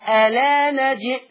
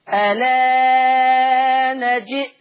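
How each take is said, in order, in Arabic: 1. الحرف الممدود يُمَدّ مدًا قصيرًا. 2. الحرف الممدود يُمَدّ مدًا متوسطًا. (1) "القصر" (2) "التوسط"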